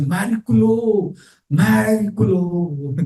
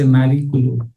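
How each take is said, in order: First: High, slow, wonder-struck "Miracolo"; Italian "Miracolo" drawn out high in wonder; awed dying man. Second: Italian "Miracolo" with a rolled r and open vowels; Italian word. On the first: Retold or imitated. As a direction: breathe out "Miracolo" slowly in awe. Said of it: "He said". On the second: Shown as a demonstration. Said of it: "you say, for miracle".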